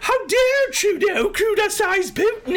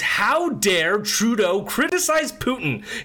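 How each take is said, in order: First: It is said in a put-on British accent. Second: It is said in the speaker's normal accent.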